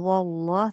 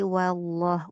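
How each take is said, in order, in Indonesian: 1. Bunyi wa di awal tebal dan berat. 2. Bunyi wa di awal tipis dan ringan. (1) "jangan wallah" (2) "tapi wallah, wanya tipiskan dulu"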